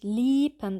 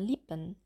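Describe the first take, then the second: First: The i vowel is fully long and tense. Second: The i vowel is medium-long and tense. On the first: "Das kurze I wird auch teilweise ein bisschen zu lang ausgesprochen" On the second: "aber es ist so ein mittellanges I"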